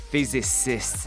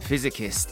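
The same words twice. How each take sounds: First: The middle sounds like sis, not six. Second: The word sounds like physics plus ist. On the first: The speaker calls it right. "じゃなくてphysicist ね。" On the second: The speaker calls it wrong. "physicist とかさ、"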